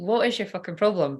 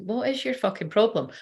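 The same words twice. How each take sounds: First: It is said in a polite, softened tone. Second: It is said in a blunt, rude tone. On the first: This is how it was actually said aloud. "But I said it politely" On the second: This is what was felt inside. "without saying it like that"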